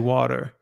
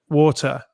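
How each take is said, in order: First: It is said in an American accent. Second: It is said in a British accent. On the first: "you say water, and it's just more melodic" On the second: "instead of saying water"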